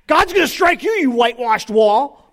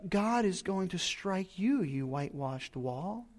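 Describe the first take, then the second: First: It is said in an angry tone. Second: It is said in a gentle, loving tone.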